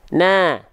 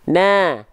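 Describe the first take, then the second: First: The vowel sounds thin, lips spread in a smile. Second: The vowel sounds thin, lips spread in a smile.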